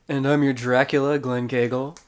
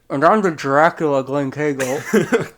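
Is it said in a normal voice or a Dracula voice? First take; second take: normal; Dracula. First: It is said in his normal voice. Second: It is said in a put-on Dracula voice.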